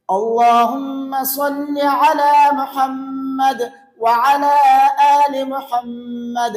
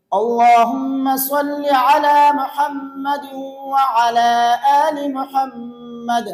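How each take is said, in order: First: Slow recitation with a pause after each phrase; pausing between phrases. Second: No pauses, all on one breath. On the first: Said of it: "یہ تو میں ٹھہر ٹھہر کر آپ کے سامنے پڑھ رہا ہوں". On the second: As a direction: run the phrases together in a single breath. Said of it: "ایک سانس میں پڑھیں گے تو یوں پڑھیں گے". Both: Shown as a demonstration.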